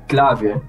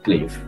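First: The name has a local Aruban pronunciation. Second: The name has a plain English pronunciation. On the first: "which is actually how you pronounce it in like here at Aruba" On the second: "but more simple for everyone, just say it Clave"

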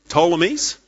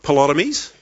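First: The opening P sound is silent. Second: The opening P sound is pronounced. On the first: The speaker calls it right. "There's a silent P there" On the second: The speaker calls it wrong. "they're not Ptolemies"

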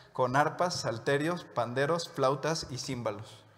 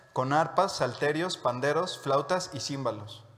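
Both takes have the same delivery.

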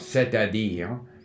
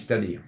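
First: Every vowel is pronounced fully and clearly. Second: The vowels are slurred and not given full value. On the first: "we want to have the clear" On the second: "people then end up saying c'est-à-dire, so that they don't give it full value"

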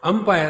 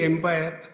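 First: The word begins with an 'um' sound. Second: The word begins with an 'em' sound. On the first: The speaker calls it right. "the one who is batting, bowling, and the other one who sees if somebody is right or wrong. Umpire" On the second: The speaker calls it wrong. "Same thing, empire"

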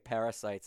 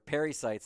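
First: It starts like 'parra', as in parasites. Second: It starts like 'perry', as in pericytes. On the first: The speaker calls it wrong. "I always say parasites, and people think I'm talking about malaria" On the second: The speaker calls it right. "they're pericytes"

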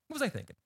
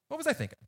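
Both takes have the same delivery.

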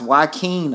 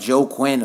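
First: The name begins with a 'Wah' sound. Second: The name begins with a 'Joe' sound. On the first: The speaker calls it right. "It's Joaquin, I think. That's how you say it" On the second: The speaker calls it wrong. "it looks like Joe Quinn or some shit like that"

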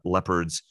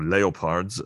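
First: The word is pronounced the English way. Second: The word is pronounced the German way.

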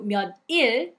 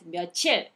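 First: It is said as two separate, choppy parts. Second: It is said as one smoothly linked word. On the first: The speaker calls it wrong. "it's not smooth" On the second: The speaker calls it right. "you make it smooth, you pronounce it as 며칠"

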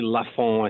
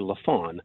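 First: The name is pronounced the French way. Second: The name is pronounced the English way. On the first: "I don't say Lafon" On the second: "which is sort of the bastardized English version of the name"

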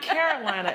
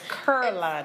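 First: It is said in a plain, neutral accent. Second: It is said in a curling Southern accent. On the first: "It's not Carolina" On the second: "It's Carolina. With a curl"

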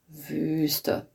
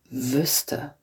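First: The ü vowel is held long. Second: The ü vowel is cut short. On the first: "langes Ü, zum Beispiel Wüste, durch die oberen Zähne" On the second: "Durch die unteren Zähne"

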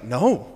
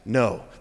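First: It is said with lively, expressive tone. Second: It is said in a flat monotone.

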